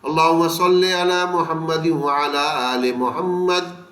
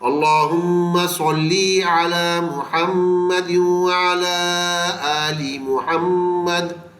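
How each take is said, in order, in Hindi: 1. शब्द के अंत वाले स्वर छोटे हैं। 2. शब्द के अंत वाले स्वर लंबे हैं। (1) "आपको लाजमी ये सल्ले ही मिलेगा" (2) "बड़ी ये के बजाय छोटी ये की आवाज़ निकलेगी"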